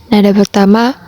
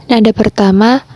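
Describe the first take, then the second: Both takes have the same delivery.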